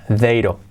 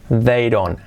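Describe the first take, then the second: The two takes are said the same way.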